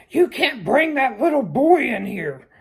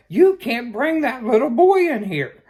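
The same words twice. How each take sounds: First: High, loud store clerk yelling a warning; shouting clerks. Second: High, loud repeated warning yell; shouting clerks. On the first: Liquor store staff shouting at a parent walking in, loud and high. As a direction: call out sharply from across the store. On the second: Liquor store staff shouting the rule again, loud and high. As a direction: shout it at a customer who didn't hear. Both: Retold or imitated. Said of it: "starts shouting at me".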